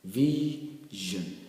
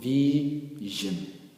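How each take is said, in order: Both takes have the same delivery.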